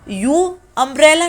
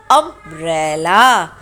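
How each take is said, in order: First: यू अम्ब्रेला said higher, with a yoo sound at the start; mock the wrong reading यू अम्ब्रेला; wrong pronunciation. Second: अम्ब्रेला said slowly and low, opening on a short अ; pronunciation demo. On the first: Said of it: "यू अम्ब्रेला नहीं पढ़ते". (ग़लत उच्चारण, यू अम्ब्रेला) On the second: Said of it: "इसको हम पढ़ते हैं". (अम्ब्रेला धीमे, अ से शुरू करके) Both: Shown as a demonstration.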